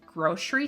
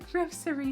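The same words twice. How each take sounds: First: The middle consonant is an sh sound. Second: The middle consonant is an s sound. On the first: It is the local Midwest way of saying it. "like with the S H sound" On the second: It sounds formal and proper. "like you're trying to sound like a very like formal British person"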